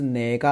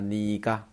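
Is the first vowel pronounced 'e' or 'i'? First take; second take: e; i. First: The first vowel sounds like 'e'. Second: The first vowel sounds like 'i'. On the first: "这个地方的话明明是哪个啊" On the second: "我读的时候呢读成了你个"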